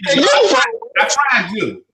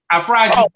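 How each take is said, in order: First: Very slow gloating "I fried you"; drawn-out taunt. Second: Said in the usual way. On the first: Real, not acted. Boasting taunt at friend.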